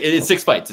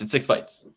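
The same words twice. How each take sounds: First: Louder, higher, stressing six; emphatic insistence. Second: Said in the usual way. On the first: Real, not acted. To co-host, insisting loudly it's six fights. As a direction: push the point hard.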